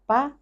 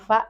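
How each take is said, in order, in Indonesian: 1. Diawali dengan bunyi p. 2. Diawali dengan bunyi f. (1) "kita baca fa eh, dengan bacaan pa" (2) "yang mana yang benar? Fa begitu ya"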